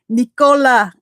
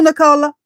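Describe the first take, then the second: First: "Nicola" as NEE-koh-luh, long ee first; "Nicola" opened with a clear long ee; testing "Nicola" said NEE-koh-luh; trying another pronunciation. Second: "Nicola" as nuh-KOH-luh, unstressed first syllable; "Nicola" with a schwa start and the stress on KOH; testing "Nicola" said nuh-KOH-luh; trying a pronunciation. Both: Shown as a demonstration. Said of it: "I don't know how you say it".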